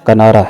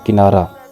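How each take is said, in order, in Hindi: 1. पहला स्वर 'a' की आवाज़ है। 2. पहला स्वर 'i' की आवाज़ है। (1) "दुरुस्त लफ्ज़" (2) "लफ्ज़ बोला जाता है"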